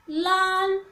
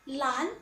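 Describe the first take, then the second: First: 懒 held on one level pitch; steady, level-pitched 懒; high level tone. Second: 懒 starting low and rising; second tone. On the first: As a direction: sustain 懒 evenly, no rise or fall. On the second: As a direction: let 懒 climb like a question. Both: Shown as a demonstration. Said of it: "with second tone".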